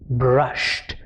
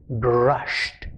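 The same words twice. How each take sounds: First: The ending is a short T sound. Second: The ending is a short T sound.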